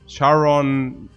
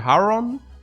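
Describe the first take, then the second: First: The name begins with an sh sound. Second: The name begins with a breathy h sound. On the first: This is the American pronunciation. "the Americans they they say" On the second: This is the original Greek pronunciation. "correct Greek would be Haron"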